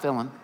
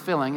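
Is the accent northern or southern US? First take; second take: southern; northern. First: It is said in a southern US accent. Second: It is said in a northern US accent.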